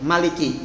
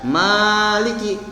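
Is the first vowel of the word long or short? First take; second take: short; long. First: The first vowel is held short. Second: The first vowel is drawn out long. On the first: The speaker calls it right. "semuanya dibaca pendek" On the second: The speaker calls it wrong. "Jadi tidak ada"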